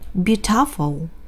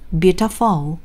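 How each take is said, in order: First: The stress is on the second syllable. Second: The stress is on the third syllable. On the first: "만약에 두 번째 모음인 어에 붙잖아요" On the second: "만약에 세 번째 모음인 어에 붙잖아요"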